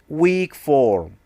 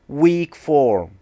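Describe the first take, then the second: No difference in how they are said.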